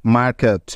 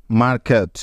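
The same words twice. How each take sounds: The two takes are said the same way.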